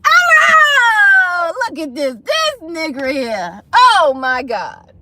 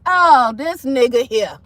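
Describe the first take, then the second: First: Loud high wail sliding down; hammed-up sobbing disbelief; mock wailing. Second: Retold disbelief. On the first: Mock wailing after ex leaves. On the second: Reacts to ex walking out.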